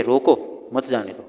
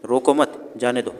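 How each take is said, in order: First: "रोको", short stop, "मत जाने दो"; pause after रोको. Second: "रोको मत", short stop, "जाने दो"; pause after मत. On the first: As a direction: set रोको apart, then run "मत जाने दो" together. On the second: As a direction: keep "रोको मत" as one unit, then pause. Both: Shown as a demonstration. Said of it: "थोड़ा सा different तरीके से बोल दिए".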